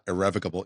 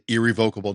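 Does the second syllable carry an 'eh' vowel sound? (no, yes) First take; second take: yes; no. First: The second syllable has an 'eh' vowel. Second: The second syllable has no 'eh' vowel. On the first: "not irrevocable, even though technically they are pronouncing it correctly" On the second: "that's why I say irrevocable"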